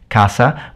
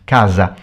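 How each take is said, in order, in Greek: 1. Το μεσαίο σύμφωνο είναι ένας άφωνος ήχος s. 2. Το μεσαίο σύμφωνο είναι ένας έμφωνος ήχος z. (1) "in the south of Italy we pronounce it casa" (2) "in the north of Italy it's pronounced casa"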